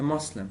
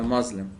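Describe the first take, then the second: First: The middle consonant is a hissing s sound. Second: The middle consonant is a buzzing z sound. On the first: This is the original Arabic way of saying it. The speaker calls it right. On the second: This is how English speakers say it. The speaker calls it wrong.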